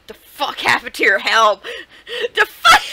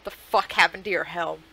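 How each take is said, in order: First: Laughing disbelief. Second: Said in the usual way. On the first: Real, not acted. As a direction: crack up mid-question. Same line twice, laughing second.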